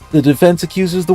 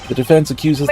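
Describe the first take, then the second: First: It is read in a chipper, upbeat character voice. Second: It is read in a plain, ordinary voice. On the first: The speaker calls it right. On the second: The speaker calls it wrong.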